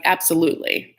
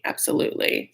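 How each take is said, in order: First: Said in the usual way. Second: A whispered echo of the word; soft whispered afterthought. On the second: Real, not acted. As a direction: drop it to a whisper the second time. Repeats agreement, second whispered.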